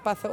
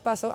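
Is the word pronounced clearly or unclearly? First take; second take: Unclearly; Clearly. First: The word is pronounced unclearly, with sounds off. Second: The word is pronounced clearly, with every sound right. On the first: The horse does not understand and stays still. The speaker calls it wrong. "el caballo no se mueve" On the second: The horse understands and moves forward. The speaker calls it right. "hago que el caballo avance"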